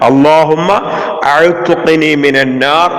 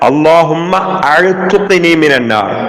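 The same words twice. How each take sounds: First: The verb is said fully, starting with 'a'. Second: The same.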